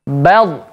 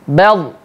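First: The final l is cut off abruptly. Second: The final l is cut off abruptly.

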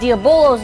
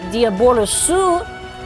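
First: It is said English-style with no final vowel. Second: It is said Japanese-style with a final vowel. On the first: This is the actual name. "is actually what the name is" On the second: This is how it is said in Japan. "is how you pronounce it in Japanese"

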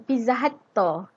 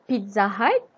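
First: It is said in a Japanese English accent. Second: It is said in a standard English accent.

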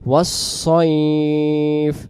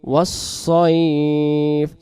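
The two takes are said the same way.

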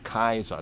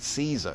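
First: The word begins with a hard K sound. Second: The word begins with a soft S sound. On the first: This is the ancient pronunciation. The speaker calls it right. "That's the way it would have been said in the ancient time" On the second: This is the later, modern pronunciation. The speaker calls it wrong. "Caesar is how we say it in the later day times"

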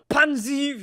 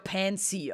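First: The name is said like German 'Pansen'. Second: The name is said with an English vowel. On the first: "wie ich sie gerne nenne, weil es sich so anhört wie Pansen" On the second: "Eigentlich wird's ja Pansy ausgesprochen"

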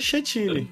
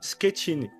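First: The first consonant is not said like k. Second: The first consonant is said like k. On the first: The speaker calls it wrong. "pra mim é Chetini" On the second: The speaker calls it right. "O CH é tipo um Q"

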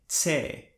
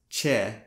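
First: The letter is said with a 'ts' sound. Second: The letter is said with a 'ch' sound. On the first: This is how it is read in Chamorro. The speaker calls it right. "In Chamorro, it is pronounced more like Tse, like in the beginning of the word tsar" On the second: This is how an English speaker would read it. The speaker calls it wrong. "In English, we would pronounce this letter as Che, like in chicks"

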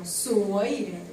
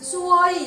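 First: The pitch dips down and then rises. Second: The pitch stays level throughout the word. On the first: It means pretty. The speaker calls it right. "이게 내려갔다 올라가야 돼요" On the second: It means unlucky. The speaker calls it wrong. "평성이 뭐냐면 수어이 이러면 여기예요"

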